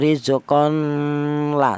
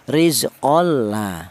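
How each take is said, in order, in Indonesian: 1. n dipertahankan dengan dengung sengau sebelum l. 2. n menyatu dengan l tanpa dengung sengau. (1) "kalau ada dengung salah" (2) "idgham bila gunnah, artinya tanpa ada dengung"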